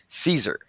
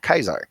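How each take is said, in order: First: The name begins with a soft S sound. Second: The name begins with a hard K sound. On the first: This is the usual way to say the name. "it's actually Caesar" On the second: The name was only ever read, never heard. "he pronounced it Kaisar, K"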